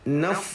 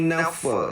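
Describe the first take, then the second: First: The word ends on a breathy, flowing f sound. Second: The final f is followed by an added vowel. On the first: The speaker calls it right. "Mesti baca naf, naf gitu ne" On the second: The speaker calls it wrong. "Bukan bukan kita baca dengan bunyi nafa, nafa salah"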